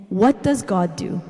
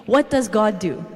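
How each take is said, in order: Both takes have the same delivery.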